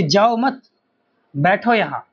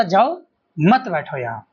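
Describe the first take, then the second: First: "जाओ मत", clear pause, then "बैठो यहाँ"; मत के बाद विराम. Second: Stretched "जाओ", break, then "मत बैठो यहाँ"; जाओ के बाद विराम. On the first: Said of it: "एक कोमा का अंतर है". ("जाओ मत" कहकर रुकें, फिर "बैठो यहाँ") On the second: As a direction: pause before मत, run it into बैठो. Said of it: "सामने वाले ने क्या समझा?". ("जाओ" खींचकर रुकें, "मत बैठो यहाँ" साथ में) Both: Shown as a demonstration.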